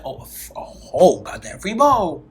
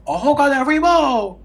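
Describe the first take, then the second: First: Amazed. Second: The "bowl" thrown up higher and louder; high amazed repeat. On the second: Retelling free food, amazed repeat. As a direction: say "A whole goddamn free bowl" again, higher, in delight. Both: Retold or imitated. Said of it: "I said".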